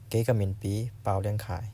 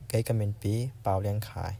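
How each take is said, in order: Both takes have the same delivery.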